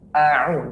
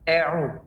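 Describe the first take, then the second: First: The first vowel stays an open 'a'. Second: The first vowel is fronted toward 'e'. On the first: The speaker calls it right. "A tetap a" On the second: The speaker calls it wrong. "jangan sampai ada imalah"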